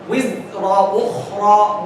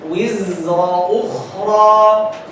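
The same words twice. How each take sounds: First: The z sound is cut off abruptly. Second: The z sound flows on continuously. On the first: The speaker calls it wrong. "You don't say" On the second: The speaker calls it right. "let it flow a little bit like this"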